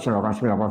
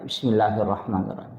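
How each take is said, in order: First: It is rattled off quickly and carelessly. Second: It is recited slowly and with care.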